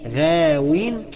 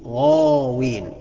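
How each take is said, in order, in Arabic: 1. الحرف الأول يُسمع رقيقاً وخفيفاً. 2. الحرف الأول يُسمع مفخماً وثقيلاً. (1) "اوعى تقول غاوين" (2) "لا الأصح فيها إنك تقول غاوين"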